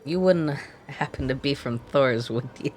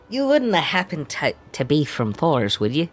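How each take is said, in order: First: It is said in the speaker's ordinary accent. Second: It is said in an exaggerated Scottish accent.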